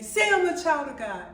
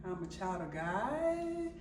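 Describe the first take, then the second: First: Loud, high retold order; acted-out yelling at her son; yelled command. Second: Soft, slow, questioning echo; imitating an unsure son, softly; hesitant child's reply. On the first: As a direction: order a child forcefully. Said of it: "like I'm yelling at him". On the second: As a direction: drag it out into an unsure rising question. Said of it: "he was looking like".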